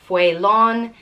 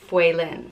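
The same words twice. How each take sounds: First: The last syllable's vowel is long. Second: The last syllable's vowel is short. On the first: The name is spelled with an accent mark. "then it elongates the way it sounds and it's Faolán" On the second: The name is spelled without an accent mark. "If there's no fada, it's Faolán"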